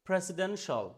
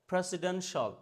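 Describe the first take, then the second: No difference in how they are said.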